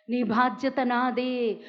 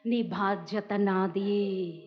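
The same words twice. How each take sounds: First: Slow, steady, stress on బాధ్యత; firm repeat. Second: Very slow and soft, lingering on నీ; soft, slow promise. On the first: Preacher repeating God's promise firmly. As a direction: say it again with resolve. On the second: Preacher voicing God to the elderly, softly slow. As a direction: whisper the comfort. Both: Acted.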